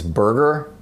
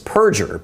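First: The ending starts with a B sound. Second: The ending starts with a P sound. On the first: The speaker calls it wrong. "they constantly mispronounce his name, like it's Berger" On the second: The speaker calls it right. "But his last name is Perger"

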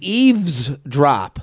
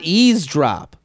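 First: The word begins with a single syllable 'eaves'. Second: The word begins with two syllables 'easy'. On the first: The speaker calls it right. "I didn't know it was eavesdrop" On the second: The speaker calls it wrong. "not eavesdrop"

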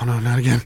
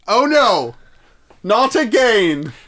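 First: It is muttered quietly under the breath. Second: It is announced loudly and openly.

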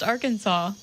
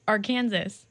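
First: The word ends with a 'saw' sound. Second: The word ends like 'Kansas', with final s. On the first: "pronounced Arkansas" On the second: "instead of Arkansas"

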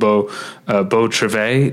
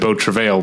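First: The final L sound is silent. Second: The final L sound is pronounced. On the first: The speaker calls it right. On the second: The speaker calls it wrong.

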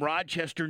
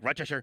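First: Rochester is said with an outsider's pronunciation. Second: Rochester is said with a local native pronunciation. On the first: The speaker calls it wrong. "I know I'm not saying it right" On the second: The speaker calls it right. "if you're a native, you're supposed to say, like"

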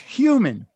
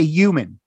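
First: The word starts with an H sound. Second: The word starts without an H sound. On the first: The speaker calls it right. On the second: The speaker calls it wrong.

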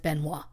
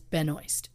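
First: The surname is said in a French-Canadian style. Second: The surname is said without the French-Canadian style. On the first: This is the instinctive reading of the name. The speaker calls it wrong. "the Canadian in me wants to say her last name is Benoit" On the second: This is how the name's owner says it. The speaker calls it right. "she says Benoist"

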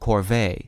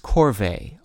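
First: The stress is on the second syllable. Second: The stress is on the first syllable.

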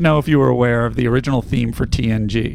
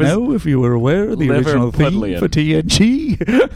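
First: It is read in the speaker's ordinary accent. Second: It is read in an imitated Liverpool accent. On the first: "Please read in your normal voice" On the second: "It was Liverpool"

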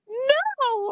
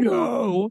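First: It is said playfully, while smiling. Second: It is said sternly and seriously.

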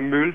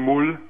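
First: The vowel is a rounded front ü sound. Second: The vowel is a back u sound. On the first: "die sagen ja nicht einmal Müll" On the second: "die sagen Mull"

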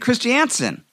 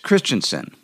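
First: The stress is on a later syllable. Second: The stress is on the first syllable. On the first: This is the revised family pronunciation. The speaker calls it wrong. "I've been saying Christiansen" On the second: This is the original family pronunciation. The speaker calls it right. "obviously accenting the first syllable"

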